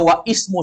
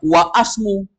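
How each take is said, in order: First: An 'i' vowel is sounded before 'smu'. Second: An 'a' vowel is sounded before 'smu'. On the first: "Dia dibaca wa ismu saja salah" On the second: "Jangan dibaca wa asmu"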